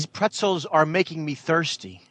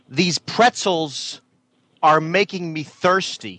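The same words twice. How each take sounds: First: It is said with little emotion. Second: It is said with more emotion.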